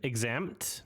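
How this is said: The pitch rises at the end. It is a question. The speaker calls it right. "she's asking a question"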